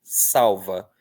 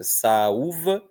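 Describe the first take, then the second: First: Salva with strong A, L as quick u; weak U glide. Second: Saúva in three syllables, Ú strong; full vowel U. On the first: Teacher contrasting pronunciations, stressed A with gliding U. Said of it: "pronunciar com força no A". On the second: Teacher contrasting pronunciations, stressed separate U. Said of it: "Olha a diferença". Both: Shown as a demonstration.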